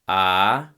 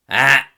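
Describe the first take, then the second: First: The vowel is said with plain, modal voicing. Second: The vowel is said with a harsh, strident voice. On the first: "modal voice"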